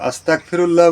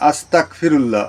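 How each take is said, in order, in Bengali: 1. মাঝের ব্যঞ্জনটি শক্ত k ধ্বনি। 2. মাঝের ব্যঞ্জনটি শক্ত k ধ্বনি।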